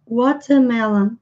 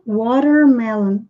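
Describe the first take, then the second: First: British accent, with the r not pronounced. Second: American accent, with the r clearly pronounced. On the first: "no inglês britânico, como eles não costumam pronunciar esse R, vai ficar watermelon" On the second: "E no inglês americano"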